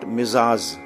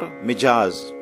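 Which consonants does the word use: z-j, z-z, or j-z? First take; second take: z-z; j-z. First: A z comes first, then another z. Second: A j comes first, then a z. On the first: "Not Mizaz" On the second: "Or Mijaz"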